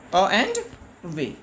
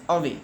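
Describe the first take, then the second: First: "A and way" as two parts, pause before a lower way; split into syllables. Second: Said in the usual way. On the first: Shown as a demonstration. Teacher showing children the two syllables, "A and way" said in parts. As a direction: sound "A and way" one syllable at a time. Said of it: "has two syllables". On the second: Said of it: "means away".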